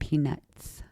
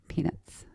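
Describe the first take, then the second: First: The final s sound is carefully clear. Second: The final s sound is lisped.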